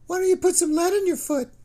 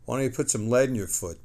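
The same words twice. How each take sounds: First: Far higher and louder, a sneering squeaky taunt; mock him in a shrill-high teasing voice. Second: Said in the usual way. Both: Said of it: "his voice high and mocking".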